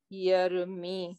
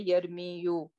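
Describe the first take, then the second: First: It ends on 'mi' with no added syllable. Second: It ends with an added 'yu' syllable. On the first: The speaker calls it right. "That's why we say yer me" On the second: The speaker calls it wrong. "We do not say yer me you"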